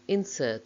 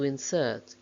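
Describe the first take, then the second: First: The stress is on the first syllable. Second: The stress is on the second syllable. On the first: It is used as a noun. "main stress of the nouns is on the first syllable" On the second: It is used as a verb. "main stress of the verbs is on the second syllable"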